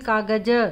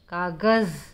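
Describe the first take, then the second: First: The word ends with a j sound. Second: The word ends with a z sound. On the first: The speaker calls it wrong. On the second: The speaker calls it right.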